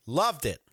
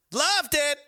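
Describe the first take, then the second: First: Said in the usual way. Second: Loud, high burst of enthusiasm; enthusiastic shout. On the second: Real, not acted. Host relishing Halloween memories, enthusiastic shout. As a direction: belt it out, much higher.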